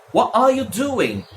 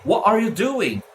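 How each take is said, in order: First: What are you doing with a softened R in are; another variant. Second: What are you doing with a T-less What; dropped T. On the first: Teacher showing one more form, What are you doing with a softened are. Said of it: "muitas formas de se pronunciar". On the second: Teacher repeating the variant, What without its T. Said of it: "Sem o T". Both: Shown as a demonstration.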